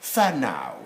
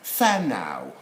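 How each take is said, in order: First: The word begins with an F sound. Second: The same.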